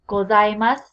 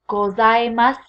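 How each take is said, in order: Both takes have the same delivery.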